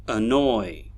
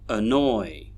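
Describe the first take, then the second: Both takes have the same delivery.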